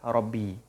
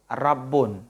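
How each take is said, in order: First: The final vowel of the word is i. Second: The final vowel of the word is u. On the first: This is the standard reading. The speaker calls it right. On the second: This is a weak dialect reading. The speaker calls it wrong.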